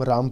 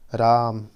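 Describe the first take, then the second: First: Said in the usual way. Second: "राम" drawn out loud, with a long held आ; prolonged vowel. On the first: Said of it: "हम simple अगर राम बोले". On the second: Shown as a demonstration. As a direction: hold the आ in "राम" well past normal length, louder. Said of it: "पुलिस स्वर के माध्यम से बोलें". ("राम" ज़ोर से, आ को लंबा खींचकर)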